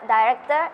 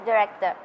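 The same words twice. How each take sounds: First: "director" in a British accent, first syllable like "die". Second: "director" in an American accent, short "dih" to begin. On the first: Student showing an interviewer both accents, British "director". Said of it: "In British accent, it is". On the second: Student showing an interviewer both accents, American "director". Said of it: "In American accent". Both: Shown as a demonstration.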